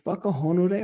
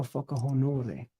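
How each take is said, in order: First: Whakahonore ending in a drawn "ay" sound; trying one pronunciation. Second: Whakahonore ending in a short "eh" sound; trying alternative pronunciation. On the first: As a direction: say "whakahonore" with a final "-day". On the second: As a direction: say "whakahonore" with a final "-deh". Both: Shown as a demonstration. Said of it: "is it whakahonore or whakahonore".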